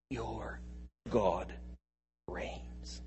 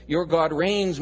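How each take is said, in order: First: Whispered proclamation. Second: Louder, declared with force; loud proclamation. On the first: Preacher whispering the good news to the congregation. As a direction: drop to a breathy whisper on reigns. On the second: Preacher proclaiming boldly to the congregation. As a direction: boom it out as a claim. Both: Shown as a demonstration.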